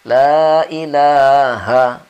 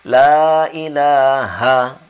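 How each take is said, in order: No difference in how they are said.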